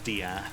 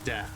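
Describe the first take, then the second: First: The word is pronounced in an odd, altered way. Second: The word is pronounced the ordinary way. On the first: "switch up the pronounce the pronunciation just weird" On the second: "instead of uh"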